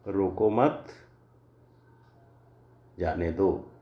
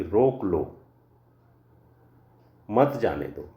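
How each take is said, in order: First: Long pause after रोको मत, then जाने दो; group रोको मत together, stop, then जाने दो. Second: रोक लो, long pause, then मत जाने दो; pause before मत. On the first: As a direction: break the sentence after मत. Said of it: "विराम चिन्ह का यदि अगर सही प्रयोग नहीं". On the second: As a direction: stop firmly after लो, keep मत with जाने दो. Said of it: "रोको के बाद विस्मयादि बोधक लगा दिया". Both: Shown as a demonstration.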